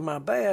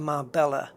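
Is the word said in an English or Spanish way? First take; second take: Spanish; English. First: It is said with a Spanish pronunciation. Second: It is said with an English pronunciation. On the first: The speaker calls it right. "Well, no, you didn't" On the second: The speaker calls it wrong. "the English people will say"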